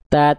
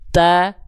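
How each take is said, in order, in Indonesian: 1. Ujung lidah menjulur di antara gigi. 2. Ujung lidah tersembunyi di belakang gigi. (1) "ujung lidahnya nggak nongol, melet-melet. Ta, ta, ta, ta, nggak gitu" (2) "Nggak kelihatan huruf ta ujung lidahnya. Ta, ti, tu, di area mulut kita"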